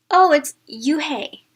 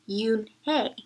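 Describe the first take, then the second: First: Yoo-hae said loud and slow, dropping the n; Yoo-hae mangled with a teasing lilt; mispronounced name. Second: Yoon-hae spelled out in two careful syllables; correct name pronunciation. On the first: Acted. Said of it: "the boy said". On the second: Shown as a demonstration. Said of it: "It's pronounced".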